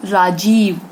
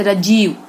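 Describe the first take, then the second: First: राजीव said with a long open aa in the first syllable; correct pronunciation. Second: राजीव said with a short first vowel, "rajeev" as rəjiv; Punjabi mispronunciation. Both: Shown as a demonstration. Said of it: "जबकि क्या होगा".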